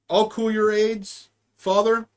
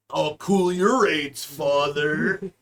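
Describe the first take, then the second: First: Said in the usual way. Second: "father" drawn out low with a rising end; odd father. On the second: Shown as a demonstration. Joking with a friend, drawls "father" low and slow. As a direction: stretch out "father" deep and slow. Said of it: "I love how you say father".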